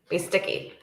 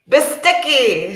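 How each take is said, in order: First: It is said with ordinary, low energy. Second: It is said with more energy and force.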